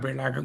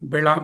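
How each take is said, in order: First: The word ends with an added gam sound. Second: The word ends without a final gam sound. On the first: The speaker calls it right. "బిళగంలా ఉంటుంది" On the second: The speaker calls it wrong. "అలా అలా కాదు"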